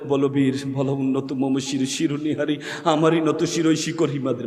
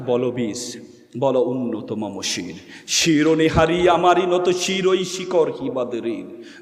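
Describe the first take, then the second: First: It is recited in a weak, unheroic way. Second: It is recited in a bold, heroic way.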